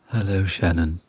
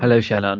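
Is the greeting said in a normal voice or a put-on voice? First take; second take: put-on; normal. First: It is said in a special put-on voice. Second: It is said in an ordinary speaking voice.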